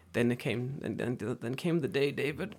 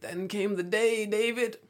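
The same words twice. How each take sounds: First: Said in the usual way. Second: Slow, high, drawn-out storyteller; teasing, sing-out suspense; mock-dramatic build-up. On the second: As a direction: stretch it out like an epic reveal. Mock-epic storytelling repeat.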